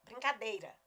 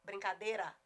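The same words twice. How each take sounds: First: BRINCADEIRA with the whole EI diphthong, "brin-ca-DEI-ra"; full standard pronunciation. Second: BRINCADEIRA without the I, "brin-ca-DÊ-ra"; common reduced pronunciation. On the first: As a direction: say BRINCADEIRA with every vowel sounded. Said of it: "a palavra é brincadeira". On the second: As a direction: say BRINCADEIRA as "brincadera", dropping a vowel. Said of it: "A maioria fala". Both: Shown as a demonstration.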